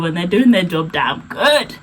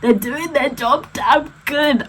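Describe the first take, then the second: First: Said in the usual way. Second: Higher, slower, leaning on damn good; sassy slowed emphasis on good; emphatic repeat. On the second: Real, not acted. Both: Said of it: "repeats for emphasis".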